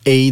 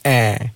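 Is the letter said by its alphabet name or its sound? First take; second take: name; sound. First: The letter is said as its alphabet name. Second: The letter is said as its short sound. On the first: "比如讲说A 的声音是A" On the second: "的声音是A"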